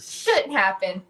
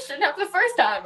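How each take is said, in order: First: Said in the usual way. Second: Higher, mocking echo of "Shouldn't happen"; mock-indignant echo of the guide; sarcastic retort. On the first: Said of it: "he's like". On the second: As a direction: throw "Shouldn't happen" back at him sarcastically. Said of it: "I said".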